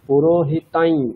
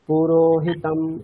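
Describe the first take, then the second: First: The word ends with a nasalized y sound. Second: The word ends with a plain m sound. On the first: The word is joined to the next word. "ইয়কারটাকেই নাক দিয়ে উচ্চারণ করতে হবে" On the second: The word is said on its own. "আলাদা করে"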